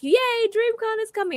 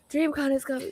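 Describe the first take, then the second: First: It is said happily and excitedly. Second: It is said in a tense, stressed way.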